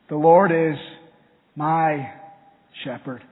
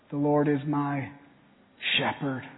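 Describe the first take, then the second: First: The word "my" is stressed. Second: The word "shepherd" is stressed.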